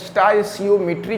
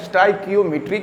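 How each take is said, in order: First: The second syllable starts with an s sound. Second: The second syllable starts with a k sound. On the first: "स्टाइसियोमेट्री कहा जाए" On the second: "या स्टाइकियोमेट्री कहा जाए"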